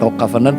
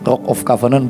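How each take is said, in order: First: It is said fast, dropping the middle word. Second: It is said slowly, with every word clear.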